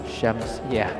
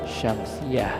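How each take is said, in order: Both takes have the same delivery.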